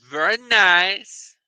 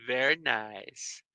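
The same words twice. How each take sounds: First: Slow, rising very nice; slow, lilting approval; drawn-out approval. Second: Slow, low, soft very nice; softly savored, low and slow; hushed approval. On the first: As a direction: stretch it out and lift the end. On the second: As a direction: drop it down low and draw it out. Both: Pretend. Repeats phrase in contrasting voice.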